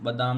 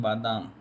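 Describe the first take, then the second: First: बदाम with short first vowel; teacher showing faulty बदाम, short ba; wrong form बदाम. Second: बादाम with long first आ; teacher modelling बादाम, long baa; correct form बादाम. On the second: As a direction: say बादाम, both vowels long. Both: Shown as a demonstration. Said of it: "बादाम नहीं".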